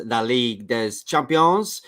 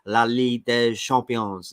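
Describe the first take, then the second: First: Slow, strained French for La Ligue des Champions, des as /dɛz/ with a sounded S; a first clumsy try at French, drawn out; bad French accent. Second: Slow, careful French, La Ligue des Champions with a silent S on des; a second, more careful try at the French; better French accent. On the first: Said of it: "I can't do the accent like you". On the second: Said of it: "Is that better?". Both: Shown as a demonstration.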